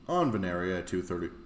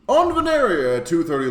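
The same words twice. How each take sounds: First: It is read in a plain, ordinary voice. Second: It is read in a dramatic announcer voice. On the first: The speaker calls it wrong. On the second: The speaker calls it right.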